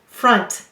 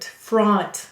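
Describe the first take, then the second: First: The vowel is a short 'uh' sound. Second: The vowel is an exaggerated 'ah' sound.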